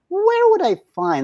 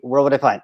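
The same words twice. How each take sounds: First: It is said lively, with a moving melody. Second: It is said flat, on one pitch. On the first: The speaker calls it right. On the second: The speaker calls it wrong.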